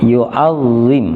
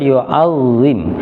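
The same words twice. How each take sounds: The two takes are said the same way.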